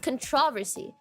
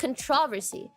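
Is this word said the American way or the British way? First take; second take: British; British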